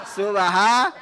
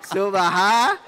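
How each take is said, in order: No difference in how they are said.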